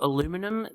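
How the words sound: The word is said the American way. "That's how it's said in America"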